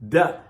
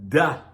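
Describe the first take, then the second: The two takes are said the same way.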